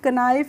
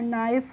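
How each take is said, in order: First: The word begins with an audible k sound. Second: The word begins directly with an n sound. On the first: The speaker calls it wrong. "इसको हम कनाइफ नहीं पढ़ते हैं" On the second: The speaker calls it right. "नाइफ पढ़ते हैं"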